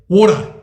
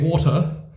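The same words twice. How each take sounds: First: It is said in an Australian accent. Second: It is said in a British accent. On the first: "the Australians say water" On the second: "the British say water"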